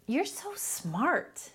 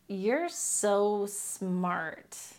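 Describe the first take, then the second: First: It is said warmly, sounding genuinely sincere. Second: It is said mockingly, sounding sarcastic. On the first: The speaker truly means the compliment. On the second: The speaker means the opposite of the words.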